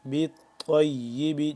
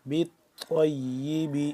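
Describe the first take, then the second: Both takes have the same delivery.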